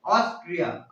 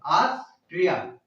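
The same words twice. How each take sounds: First: Said in the usual way. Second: Austria slowly in two parts, ऑस, pause, ट्रिया; split for memorising. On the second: Shown as a demonstration. Teacher pointing out the tree inside, Austria slowly split before ट्रिया. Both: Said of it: "tree means क्या होता है".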